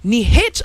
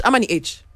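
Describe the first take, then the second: First: H said as "haitch", with breath first; H as "heych"; contrasted pronunciation. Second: H said as "aitch", no h sound; H as "eych"; contrasted pronunciation. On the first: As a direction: sound an h at the start of H: "haitch". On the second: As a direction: start H straight on the vowel: "aitch". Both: Shown as a demonstration.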